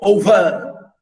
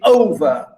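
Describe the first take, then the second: First: The stress is on the second syllable. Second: The stress is on the first syllable. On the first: The speaker calls it wrong. "We don't say over" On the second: The speaker calls it right. "We say over. ... stress the first"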